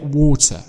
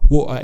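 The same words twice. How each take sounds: First: The t is clearly pronounced. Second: The t is replaced by a glottal stop. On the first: "but we do pronounce it water" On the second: "it's a Cockney accent"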